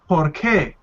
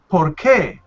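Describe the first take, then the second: First: The stress is on the second syllable. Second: The stress is on the second syllable.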